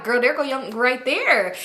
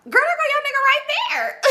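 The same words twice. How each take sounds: First: Said in the usual way. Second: Very high squeal breaking into laughter; gleeful shriek. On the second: Retold or imitated. Pointing out her man with girls in the parking lot, gleeful laughing shriek. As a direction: shriek it, then crack up.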